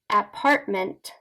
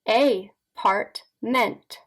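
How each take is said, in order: First: It is said quickly as one word. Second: It is said slowly in separate chunks.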